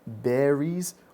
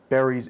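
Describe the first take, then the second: First: It has Russian-style vowels. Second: It has short, simple English vowels. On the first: The speaker calls it wrong. "it would be berries" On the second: The speaker calls it right. "instead of berries"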